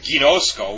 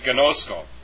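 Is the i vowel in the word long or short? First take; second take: long; short. First: The i vowel is held long. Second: The i vowel is kept short. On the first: The speaker calls it wrong. "we don't pronounce it gnosko" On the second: The speaker calls it right. "that's one point where it's short"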